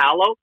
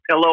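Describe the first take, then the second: First: The first vowel is an open 'ah' sound. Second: The first vowel is the usual 'ih' sound. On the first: The speaker calls it wrong. "a palo" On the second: The speaker calls it right. "people will call a pillow"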